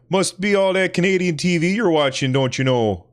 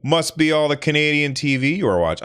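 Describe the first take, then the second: First: High, bright Canadian accent with a lilting don't you know. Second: Said in the usual way. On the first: Shown as a demonstration. Teasing himself about Canadian TV in a Canadian accent. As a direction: put on a thick Canadian or Wisconsin accent. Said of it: "if I'm gonna say that, I must be like". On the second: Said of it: "I'm sorry, if I'm gonna say that".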